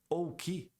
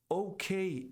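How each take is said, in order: First: The K is named the Portuguese way. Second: The K is named the English way. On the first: The speaker calls it wrong. "e não OK" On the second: The speaker calls it right. "você diz OK"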